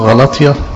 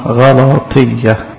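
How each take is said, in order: First: The word is said in the colloquial form. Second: The word is said in the formal form. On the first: This is how people commonly say it. The speaker calls it wrong. "زي ما انتوا بتسموها" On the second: This is the proper name of the letter. The speaker calls it right. "بس هي اسمها"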